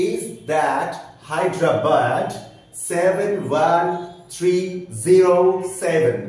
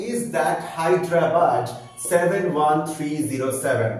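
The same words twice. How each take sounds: First: "Hyderabad" ending -bad as British "bad", each number spaced out and louder; over-articulated British pronunciation, slow and deliberate; teacher distorts the phrase into British English so the vowels come out clearly; exaggerated British accent. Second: Said in the usual way. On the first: Shown as a demonstration. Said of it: "মানে বিকৃত করে উচ্চারণ করছি". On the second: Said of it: "বিকৃত করে উচ্চারণ করছি".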